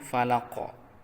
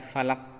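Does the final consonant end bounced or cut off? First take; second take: bounced; cut off. First: The final consonant ends with a bouncing echo. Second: The final consonant stops flat without an echo. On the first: The speaker calls it right. "tetapi falaq ... dipantulkan" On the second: The speaker calls it wrong. "tidak boleh dibaca falak"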